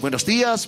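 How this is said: The greeting sounds cheerful and friendly.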